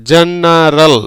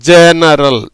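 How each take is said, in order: First: ஜெனரல் said with a soft J sound at the start; teacher models ஜெனரல் with a soft J, then repeats it; soft g demo. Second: ஜெனரல் again with the soft J, a little louder and falling; a firmer second take of ஜெனரல், soft J kept; repeated soft g demo. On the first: Repeating ஜெனரல் with a soft J for learners. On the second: Teacher repeats ஜெனரல் louder for the class. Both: Shown as a demonstration. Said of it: "இஜ்ஜுங்கிற உச்சரிப்புல வருது".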